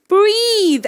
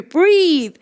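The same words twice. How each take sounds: First: High, insistent command; the body urgently ordering you; mild mock yell; mock scream. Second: Raised, insistent command; mild mock yell; mock scream. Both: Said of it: "I'm screaming at you".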